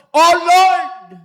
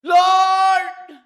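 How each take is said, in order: First: Malakas na pagsigaw sa Panginoon; sigaw. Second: Mataas at malakas na "Lord!"; sigaw. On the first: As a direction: isigaw nang buong lakas, mataas. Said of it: "napasigaw po ako". (malakas na sigaw ng "Oh Lord!") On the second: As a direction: sumigaw nang mataas, buong lakas. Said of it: "Sumigaw po ako ng ganun". (malakas na sigaw ng "Lord!") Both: Retold or imitated.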